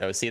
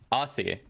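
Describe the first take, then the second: First: It is said as two letters, 'O C'. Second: It is said as one word, 'Aussie'. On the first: "most people just pronounce it O C though" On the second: "I made it Aussie as like short for Ocelot"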